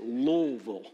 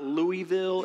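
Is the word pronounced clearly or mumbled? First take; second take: mumbled; clearly. First: The word is mumbled and heavily reduced. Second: The word is pronounced clearly, syllable by syllable. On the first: The speaker calls it right. "This is the proper way to say it, ... You say it like you have rocks in your mouth" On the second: The speaker calls it wrong. "it's not Louisville, ... stop it"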